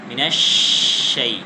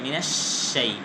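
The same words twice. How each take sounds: First: The sh sound is made at the palate. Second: The sh sound is made against the teeth. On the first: The speaker calls it right. "জিহ্বার মধ্যখান উপরে তালুর সাথে লাগালেই শিনের সঠিক উচ্চারণটা হবে" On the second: The speaker calls it wrong. "দাঁত লাগিয়ে যদি উচ্চারণ করেন"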